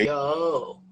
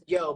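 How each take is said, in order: First: The vowel is stretched out long. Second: The vowel is short and plain. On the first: "Yo with three O's" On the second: "Not just Yo"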